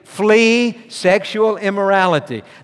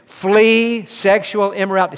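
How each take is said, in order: First: It is said with strong, believing conviction. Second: It is said plainly, without special conviction.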